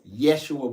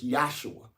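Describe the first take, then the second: First: The first syllable sounds like 'Yeh'. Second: The first syllable sounds like 'Yah'. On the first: The speaker calls it wrong. "Yes, Yeshua" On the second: The speaker calls it right. "but it's Yahshua"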